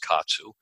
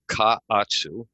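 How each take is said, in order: First: The word is said fast, syllables run together. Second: The word is said in full, syllables kept apart.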